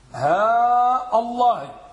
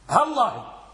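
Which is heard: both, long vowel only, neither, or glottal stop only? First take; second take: both; neither. First: Long vowel on ha, glottal stop before Allah. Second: Short vowel on ha, no glottal stop before Allah. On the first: "اللغة الأولى هاء الله ... وضعنا المد على الهاء والهمزة قطعية" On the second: "اللغة الثانية نحذف المد والهمزة القطعية"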